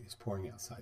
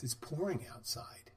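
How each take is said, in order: First: Said in the usual way. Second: A soft, slow, breathless whisper of the news; whispered report. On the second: Retold or imitated. Customer coming back in, whispering that it's pouring outside. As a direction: lean in and breathe the words out slowly.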